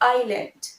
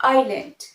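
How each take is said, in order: First: It begins with an 'eye' sound. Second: It begins with an 'eye' sound.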